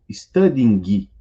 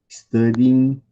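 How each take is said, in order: First: The final g sound is clearly pronounced. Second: The final g sound is dropped. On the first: The speaker calls it wrong. "Ninguém fala sleeping ou studying" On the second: The speaker calls it right. "esse G final não é pronunciado"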